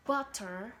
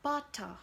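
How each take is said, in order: First: American-style butter, ending in R; American pronunciation. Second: Butter with a clear T and no final R; British-style butter, T sounded, R dropped; British pronunciation. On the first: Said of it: "It turns into combination of T". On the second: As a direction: say butter as "buh-tah". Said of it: "the British will say butter". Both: Shown as a demonstration.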